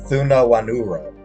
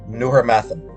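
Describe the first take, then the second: First: The name is said slowly. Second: The name is said quickly. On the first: The speaker calls it right. "you need to say it slowly" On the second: The speaker calls it wrong. "I was saying it too quickly"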